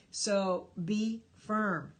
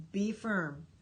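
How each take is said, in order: First: "So be firm" drawn out slowly; emphatic slow. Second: Said in the usual way. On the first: Shown as a demonstration.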